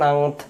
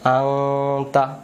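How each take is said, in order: First: The word ends on the t sound. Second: The word ends with a short vowel. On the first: "আনত এমন করে বলতে পারবেন" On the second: "আনতা তাও বলতে পারবেন"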